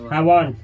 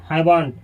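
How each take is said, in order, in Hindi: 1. यह एक छोटे शब्द में मिलाकर बोला जाता है। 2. यह एक छोटे शब्द में मिलाकर बोला जाता है।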